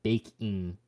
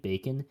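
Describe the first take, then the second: First: "baking" with a clear ng at the end; full -ing ending. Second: "bacon" with a plain n ending, for baking; dropped g. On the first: Host correcting own pronunciation, "baking" with full -ing. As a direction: finish "baking" on -ing, not -in. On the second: Host talking about baking, "bacon" said with g dropped. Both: Real, not acted. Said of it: "I don't pronounce my I N Gs".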